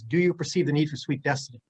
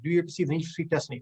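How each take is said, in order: First: It is said at a normal speed. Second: It is said really fast.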